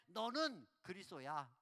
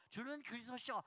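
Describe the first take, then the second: First: Slow, flat banmal with no honorific; blunt casual speech. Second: Said in the usual way. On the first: Shown as a demonstration. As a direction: say it rudely casual, like to a peer. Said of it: "이렇게 싸가지가 없죠". (반말로 무례하게) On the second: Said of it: "번역하는 사람들이 존칭으로".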